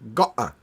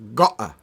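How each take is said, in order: No difference in how they are said.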